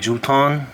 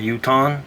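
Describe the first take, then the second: First: The word begins with a J sound. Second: The word begins with a Y sound. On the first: "the letter J is the only uh, language in English that's pronounced J" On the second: "all other languages uh, throughout the earth uh, pronounces it Ya"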